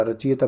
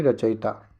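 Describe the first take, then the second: First: रचयिता as "rachi-yeeta"; wrong long ee. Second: रचयिता as "racha-yita"; short i after य in रचयिता; correct short i. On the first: Teacher rejects the long vowel sign, "rachi-yeeta". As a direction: draw an ee into रचयिता. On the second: Teacher corrects the vowel sign, short "yi" in रचयिता. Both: Shown as a demonstration. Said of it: "बड़ी की मात्रा नहीं".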